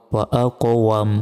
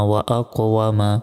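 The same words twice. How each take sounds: First: ওয়াম closed on m, no final a; stopping with sukun. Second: Said in the usual way. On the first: Shown as a demonstration. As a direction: end ওয়াম on a still m, dropping the vowel. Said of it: "শেষ অক্ষরে সাকিন দিয়ে". (থামলে ওয়াম-এর শেষে সাকিন) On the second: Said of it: "এখানে যদি থামি".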